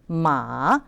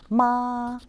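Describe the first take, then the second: First: The pitch dips low, then rises. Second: The pitch stays high and level. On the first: It means horse. "M A third tone" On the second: It means mother. "if we pronounce the first tone with this character, that means mother"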